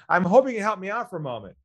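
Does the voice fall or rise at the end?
rise. The voice rises at the end. The speaker calls it wrong. "Don't go"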